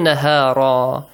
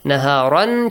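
First: The word ends with a long a, no n. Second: The word ends with an n sound. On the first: "changes to" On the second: "changes to"

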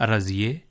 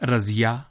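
First: The name ends with an 'e' vowel. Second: The name ends with an 'a' vowel.

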